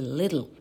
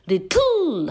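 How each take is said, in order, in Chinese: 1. 重音在第一个音节。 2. 重音在第二个音节。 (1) "一定是little" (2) "绝对不会念little"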